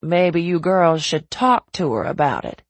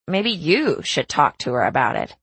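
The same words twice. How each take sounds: First: Said in the usual way. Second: YOU stressed, turning it back on the listener; pointed emphasis on YOU, rest falling away. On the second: A narrator's reading. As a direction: lean hard on "you". Caroline hands the suggestion back.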